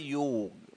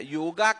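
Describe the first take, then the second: First: The word ends on a consonant, with no final vowel. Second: The word ends with an added 'a' vowel. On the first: The speaker calls it right. "जो मूल शब्द है वह है योग" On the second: The speaker calls it wrong. "योगा correct नहीं है"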